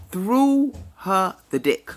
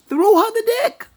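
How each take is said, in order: First: Slow, spaced-out words; measured and deliberate, word by word; slow emphasis. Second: High, loud exclamation; loud repeat leaping high at the end; emphatic repeat. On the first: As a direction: draw out each word for weight. Repeats the phrase for emphasis. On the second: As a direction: punch it out loud, pitched way up. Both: Real, not acted.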